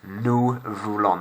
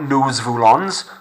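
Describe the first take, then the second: First: The final S sounds are kept silent. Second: The final S sounds are pronounced aloud. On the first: The speaker calls it right. "Notice that my S's are silent" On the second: The speaker calls it wrong.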